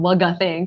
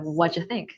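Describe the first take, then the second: First: The words blur into a hard g sound. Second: The words are said without a g sound. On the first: The speaker calls it wrong. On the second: The speaker calls it right.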